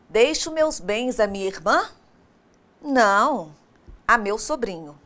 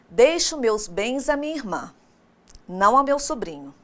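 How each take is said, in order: First: A questioning rise, then a break after não. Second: A break before não, then straight on.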